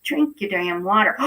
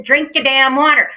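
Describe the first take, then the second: First: Said in the usual way. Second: Loud, higher, insistent order; emphatic command. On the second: Real, not acted. Host repeats her order to viewers, loud and emphatic. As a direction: belt it out to drive the order home.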